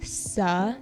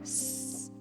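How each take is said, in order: First: The s sound is followed by a vowel. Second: The s sound stands alone without a vowel. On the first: The speaker calls it wrong. "Make sure you're not putting a vowel in with the S sound" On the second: The speaker calls it right. "just say s"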